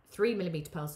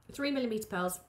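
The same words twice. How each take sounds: First: Words broken by hiccups. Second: Said in the usual way. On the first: Real, not acted. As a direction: say it mid-hiccup, catching breath. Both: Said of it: "sorry, I've got hiccups now".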